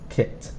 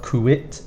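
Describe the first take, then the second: First: The U is silent, giving a plain 'kit'. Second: The U is sounded before the final 'it'. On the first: The speaker calls it right. "we don't really pronounce this U" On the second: The speaker calls it wrong. "It's not kuit"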